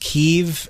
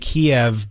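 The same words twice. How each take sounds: First: The name is said the Ukrainian way. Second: The name is said the Russian way. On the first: This is how Ukrainian speakers name the city. "in Ukrainian it's pronounced Kiev" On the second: This is how Russian speakers name the city. "in Russian they say Kiev"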